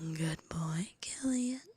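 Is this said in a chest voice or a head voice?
chest. It is said in a deeper, fuller chest voice. The speaker calls it right. "my chest voice needs to be like unlocked"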